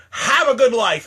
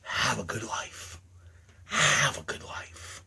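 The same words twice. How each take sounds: First: Dismissive cheery farewell; curt farewell. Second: Low, slow, near-whispered goodbye; icy murmured send-off; cold farewell. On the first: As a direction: snap the goodbye out. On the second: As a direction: let it drop to a hush. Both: Acted. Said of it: "saying to every one of you".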